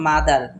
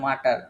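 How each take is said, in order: First: The middle consonant sounds like a d. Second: The middle consonant sounds like a t. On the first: The speaker calls it right. "এটা কিন্তু মাদার" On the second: The speaker calls it wrong. "তাহলে আপনারা কি বলেন"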